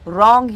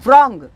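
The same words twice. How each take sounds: First: The word starts with a silent W. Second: The word starts with a sounded W. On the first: The speaker calls it right. "उसका pronunciation रॉन्ग ही होगा" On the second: The speaker calls it wrong. "उसका उच्चार रॉन्ग ऐसा नहीं करोगे"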